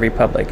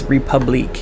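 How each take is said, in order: First: The word ends in an 'ick' sound. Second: The word ends in an 'eek' sound. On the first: It is read as the ordinary English word. "instead of Republic" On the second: It is read the way it is spelled. "It looks like it's Republique"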